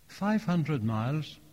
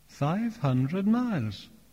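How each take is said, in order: First: The phrase is said quickly. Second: The phrase is said slowly. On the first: The distance sounds small. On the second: The distance sounds large.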